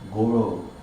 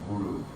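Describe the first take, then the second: First: The vowels are said like 'oh'. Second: The vowels are said like 'oo'. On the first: It sounds like calling someone a cow. The speaker calls it wrong. "you say Goro in such a way as you're actually calling me a cow" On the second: It names the spiritual teacher. The speaker calls it right. "I know that you mean Guru"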